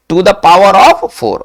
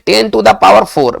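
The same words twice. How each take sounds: First: "to the power of four", slow, with "of" brought out; stress on OF. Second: Ten to the power four, slowly, with no "of" before four; common misreading. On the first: Teacher correcting how the power is read, stress on OF. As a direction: lean on "of" before four, slowly. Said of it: "ऑफ आपको लगाना होगा". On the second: Teacher showing the usual mistaken reading, common misreading. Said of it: "बिना ऑफ लगाए पढ़ते हैं". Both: Shown as a demonstration.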